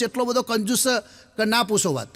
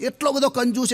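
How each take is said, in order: First: Said in the usual way. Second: Mock-amazed stress on બધો. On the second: Shown as a demonstration. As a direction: lift બધો well above the rest.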